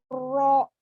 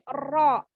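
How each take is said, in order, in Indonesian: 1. Bunyi ra diucapkan dengan bibir membulat dan dimonyongkan. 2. Bunyi ra diucapkan tebal tanpa membulatkan bibir. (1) "tidak monyong ininya, e, bibirnya, tidak ro" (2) "tapi ro"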